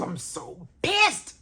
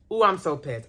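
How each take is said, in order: First: Slow groan leaping high on "pissed". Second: Said in the usual way. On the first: Real, not acted. Fan still hunting the missed scene, pissed. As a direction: drag it out, then squeal the last word.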